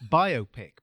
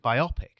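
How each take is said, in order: First: The stress is on the first syllable. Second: The stress is on the second syllable. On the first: It is short for biographical picture. The speaker calls it right. "in my mind, it's pronounced biopic because it's a biographical picture" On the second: It sounds like a word related to myopia. The speaker calls it wrong. "makes it sounds like it's about myopia"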